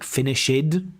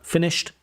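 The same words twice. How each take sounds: First: The ending adds an extra 'id' syllable. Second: The ending is a short t sound. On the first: The speaker calls it wrong. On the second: The speaker calls it right.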